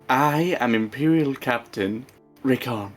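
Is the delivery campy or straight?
campy. It is said in a campy, exaggerated way.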